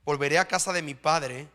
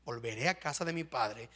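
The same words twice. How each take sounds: First: Said in the usual way. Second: Quiet echo. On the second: Shown as a demonstration.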